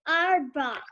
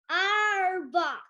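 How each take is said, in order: First: It is said in her normal voice. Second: It is said in a pirate voice.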